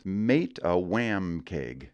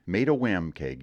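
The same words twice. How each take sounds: First: Matawamkeag with MAY at the start, MAY-tuh-wam-kig; mispronounced town. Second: Matawamkeag, lower, MAY-tuh-wam-kig; abused form repeated; mispronounced town. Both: Shown as a demonstration. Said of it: "favorite abused form".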